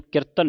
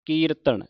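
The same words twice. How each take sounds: First: ਕੀਰਤਨ squeezed to a quick "kirtan"; wrong short vowel. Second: ਕੀਰਤਨ with a long "ee", higher pitched; correct long vowel. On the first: Teacher shows congregation's misreading, ਕੀਰਤਨ as short "kirtan". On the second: Teacher models the right reading, ਕੀਰਤਨ with long "ee". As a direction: stretch the first vowel of ਕੀਰਤਨ, "keeratan". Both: Shown as a demonstration. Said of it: "ਇਹਨੂੰ ਕੀਰਤਨ ਨਹੀਂ ਪੜ੍ਹਨਾ".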